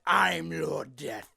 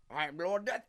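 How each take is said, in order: First: Slow, louder, drawn-out declaration; Lord Death voice test. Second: Said in the usual way. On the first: Shown as a demonstration. Voice actor trying another take, slow and emphatic. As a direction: stretch it out slowly and push the volume.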